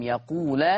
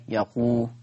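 First: يقول closing on an open la; fatha on the lam. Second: يقول closing on a rounded lu; damma on the lam. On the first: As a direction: say يقول as yaqula, ending on a. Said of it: "يقرأ بفتح اللام". (يقول بفتح اللام: يقولَ) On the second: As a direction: say يقول as yaqulu, ending on u. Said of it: "فيقرأ بضم اللام". (يقول بضم اللام: يقولُ) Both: Shown as a demonstration.

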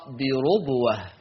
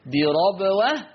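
First: بربوة as "birubwah", falling at the end; damma on ra. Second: Slow "birabwah" for بربوة, rising at the end; fatha on ra. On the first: Teacher gives Warsh's reading, بربوة with damma. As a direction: say بربوة with a rounded "ru". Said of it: "أما ورش يقرأ رو". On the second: Teacher contrasts the readings, بربوة with fatha. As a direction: say بربوة with an open "ra". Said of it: "حفص يقرأ بالفتح را". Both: Shown as a demonstration.

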